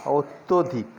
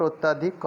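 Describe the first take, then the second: First: "अत्यधिक" with a rounded o in the middle, "ot-to-dhik"; correct pronunciation. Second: "अत्यधिक" with an open a in the middle, "ot-ta-dhik"; wrong pronunciation. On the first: Teacher models the correct word अत्यधिक, said "ottodhik". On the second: Teacher warns learners off a mistake, अत्यधिक said "ottadhik". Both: Shown as a demonstration. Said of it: "not अत्यधिक".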